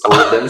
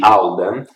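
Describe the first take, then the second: First: The name is said with an Italian pronunciation. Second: The name is said with an English pronunciation. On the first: "I'm Italian, so I pronounce it like a spaghetti eater" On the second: "read in English would be Alden"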